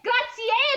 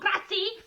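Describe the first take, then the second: First: The final E vowel is clearly pronounced. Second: The final E vowel is dropped. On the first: The speaker calls it right. "Grazie con la E alla fine" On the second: The speaker calls it wrong. "no grazie"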